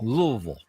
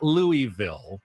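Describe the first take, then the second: First: The name is mumbled with sounds run together. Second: The name is said with every syllable clear. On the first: The speaker calls it right. "you almost mumble it. You just say Louisville" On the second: The speaker calls it wrong. "not Louisville"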